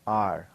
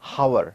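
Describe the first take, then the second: First: The word begins directly with a vowel sound. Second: The word begins with an audible h sound. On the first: The speaker calls it right. "in that h we have a vowel sound" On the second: The speaker calls it wrong. "We don't pronounce it as hour"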